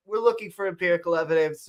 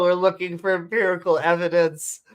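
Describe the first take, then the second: First: Quick run through the line; sped-up readout. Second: Said in the usual way. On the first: Real, not acted. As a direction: rattle it off to get moving. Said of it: "I say I go fast". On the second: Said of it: "I say I go fast, and I still can't even help myself".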